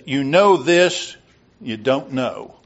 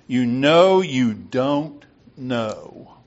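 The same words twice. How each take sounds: First: Said in the usual way. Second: "You know you don't know" said very slowly, leaning on each "know"; slow, stressed repeat. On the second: Shown as a demonstration. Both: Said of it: "Run that by me again".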